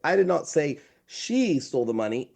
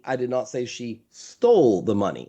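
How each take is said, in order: First: "did" stressed, rising on "did". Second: "stole" punched, falling after it; stress on STOLE. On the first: Explaining inflection to a podcast host, stress on "did". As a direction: lean on "did" so it means someone else said it. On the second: Showing the host how inflection changes meaning, stress on "stole". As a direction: hit "stole" so the accusation shifts. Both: Shown as a demonstration. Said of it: "Same words, different inflection".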